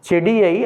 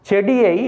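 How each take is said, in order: No difference in how they are said.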